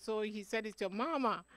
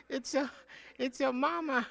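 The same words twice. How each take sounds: First: Said in the usual way. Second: A light mimic of the grandson's accent on "It's your mama"; playful retold accent on "it's your mama"; imitating grandson's accent. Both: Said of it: "because he had an accent".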